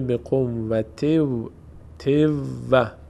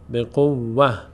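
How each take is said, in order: First: The 't' sound runs into a doubled 'w'. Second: The word ends in a soft 'h' sound. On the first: The reader continues into the next word. "اما در هنگام وصل ... تنوین تبدیل میشه به واو، ادغام صورت میگیره" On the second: The reader stops after this word. "اگر روی این وقف کنیم میشه به قوه"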